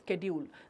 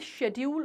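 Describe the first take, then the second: First: The word begins with an sk sound. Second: The word begins with an sh sound. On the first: "फिर एकदम से वो स्केड्यूल हो गया" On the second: "बचपन से हम शेड्यूल बोलते रहे"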